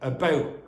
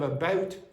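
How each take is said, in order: First: The final t becomes a glottal stop. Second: The final t is clearly pronounced. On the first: "What might happen in Dublin English?" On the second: "the word about ends in what sound? T"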